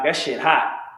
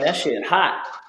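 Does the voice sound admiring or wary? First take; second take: wary; admiring. First: It is said in a cautious, warning tone. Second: It is said in an impressed, admiring tone. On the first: "The way I said it the second time is like, man, that's the police is looking for that" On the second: "you know what I'm saying by by the way I said it"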